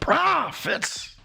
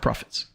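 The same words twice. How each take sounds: First: The word is said with loud, excited exclamation. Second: The word is said flatly, without excitement. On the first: The speaker calls it right. "The exclamation makes a big difference" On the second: The speaker calls it wrong. "Not profits"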